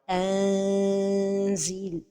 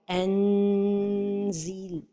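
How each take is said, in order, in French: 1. Le n est allongé comme une voyelle longue. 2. Le n est entièrement prononcé avec le bout de la langue. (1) "trop éloigner la langue du palais supérieur" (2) "toucher le palais supérieur avec le bout de la langue"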